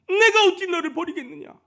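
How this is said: It is read with earnest, burning feeling.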